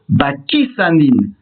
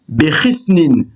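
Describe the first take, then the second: First: It begins with 'ba' and ends with 'sanin'. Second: It begins with 'be' and ends with 'snin'. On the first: The word has the definite article. "avec un article défini et un qamas sous le samer" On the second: The word has no definite article. "sans article défini"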